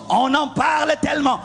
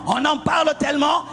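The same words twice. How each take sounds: The two takes are said the same way.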